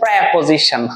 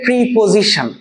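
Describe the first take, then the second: First: The first vowel sounds like 'eh'. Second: The first vowel sounds like 'ee'. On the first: The speaker calls it right. "আসলে এটা হচ্ছে প্রেপোজিশন" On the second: The speaker calls it wrong. "আমরা বলি এটাকে প্রিপোজিশন"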